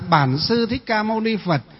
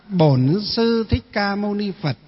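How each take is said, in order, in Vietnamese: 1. Từ đầu tiên có nguyên âm 'a' mở. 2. Từ đầu tiên có nguyên âm 'o' tròn môi. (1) "Bắc thì là" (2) "còn miền Nam thì là"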